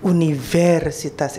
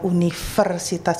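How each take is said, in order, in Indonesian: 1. Konsonan setelah 'uni' terdengar seperti v. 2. Konsonan setelah 'uni' terdengar seperti f. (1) "bukan Universitas Indonesia" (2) "yang saya ucapkan adalah Universitas Indonesia"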